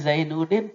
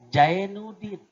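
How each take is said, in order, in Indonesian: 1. Nama itu diawali dengan bunyi z. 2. Nama itu diawali dengan bunyi j.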